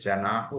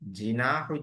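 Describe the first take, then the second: First: The first vowel is an 'a' sound. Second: The first vowel is an 'i' sound. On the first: The speaker calls it right. "जनाहु होना चाहिए" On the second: The speaker calls it wrong. "जिम पे जेर गलत है"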